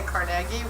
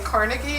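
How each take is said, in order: First: Carnegie is said the local Pittsburgh way. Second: Carnegie is said the common, general American way. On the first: This is how people from the city say it. "I say Carnegie, which I'm from Pittsburgh" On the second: This is how most other people say it. "you say Carnegie"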